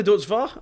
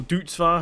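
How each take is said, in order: First: First way of saying "Deutz-Fahr"; one pronunciation. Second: "Deutz-Fahr" the other way, drawn out slowly; alternative pronunciation. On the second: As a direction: offer a slower alternative reading of "Deutz-Fahr". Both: Shown as a demonstration. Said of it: "however you wanna pronounce it".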